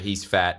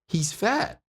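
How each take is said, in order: First: It is said in a plain, flat tone. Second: It is said with a playful, exaggerated tone. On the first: "you sit there and you say" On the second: "I will put this tonality spin on it"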